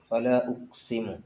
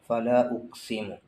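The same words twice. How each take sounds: No difference in how they are said.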